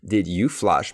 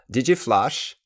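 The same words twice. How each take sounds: First: "Did you flush" with a full, separate "you"; slow, careful "Did you flush"; said slowly. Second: "Did you" blended into "didje" before "flush"; higher, connected-speech "Did you flush"; quick, run-together pronunciation. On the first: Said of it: "quand je le dis lentement". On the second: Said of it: "quand je vais le dire plus vite". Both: Shown as a demonstration.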